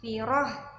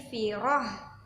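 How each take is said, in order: First: The word ends with a breathy h sound. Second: The word ends with a breathy h sound.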